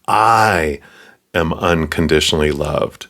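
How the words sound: The emphasis falls on the word I. It is me specifically, not someone in a crowd. "Me, specifically"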